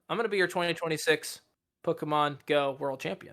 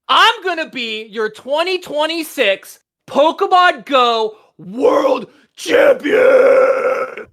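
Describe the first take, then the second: First: It is said weakly and quietly. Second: It is said loudly with high energy.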